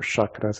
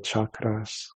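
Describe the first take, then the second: First: It is said with an American pronunciation. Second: It is said with an Indian pronunciation.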